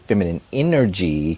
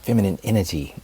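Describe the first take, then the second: First: Energy is pronounced fully, every syllable clear. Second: Energy is clipped, sounding like innagy. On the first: The speaker sounds educated and classy. The speaker calls it right. "you have to pronunciate your words. So you have to say" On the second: The speaker sounds country or like she is pretending. The speaker calls it wrong.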